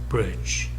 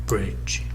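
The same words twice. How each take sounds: The two takes are said the same way.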